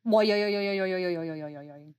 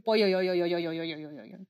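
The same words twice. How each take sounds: First: Rolling yo from the throat, fading lower; throaty yo sound effect. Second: Rolling yo yo, dropping and fading; throaty yo sound effect. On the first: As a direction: roll the throat, yo yo yo. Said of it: "my favorite sound effect". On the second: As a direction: roll it in the throat. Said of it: "I just love saying". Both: Shown as a demonstration.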